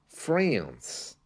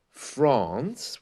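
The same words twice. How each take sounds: First: The vowel is a flat, spread front sound. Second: The vowel is a long, open back sound. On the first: "which is the American way" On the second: "which is the correct British way to say it"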